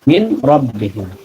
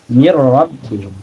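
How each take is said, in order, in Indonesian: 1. Bunyi n terdengar sebelum r. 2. Bunyi n melebur ke dalam r.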